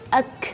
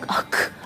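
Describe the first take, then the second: First: The final k has a moderate puff of air. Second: The final k has an exaggerated burst of air. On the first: The speaker calls it right. "jelas sekali ada angin" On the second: The speaker calls it wrong. "jangan berlebihan"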